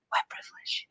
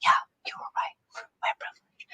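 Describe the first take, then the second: First: A knowing whisper; hushed mock verdict. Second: Friend's whispered admission; hushed conceding whisper. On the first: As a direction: whisper it like a secret. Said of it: "I'm like". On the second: Retold or imitated. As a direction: whisper it back in agreement. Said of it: "And he's like".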